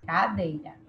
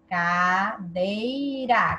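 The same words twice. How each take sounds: First: Said in the usual way. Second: "Cadeira" very slow, split into ca-dei-ra; syllable by syllable. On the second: Shown as a demonstration. Teacher testing which syllable is strongest, "Cadeira" slowly split syllable by syllable. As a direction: draw out each syllable of "Cadeira". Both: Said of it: "Qual é a mais forte?".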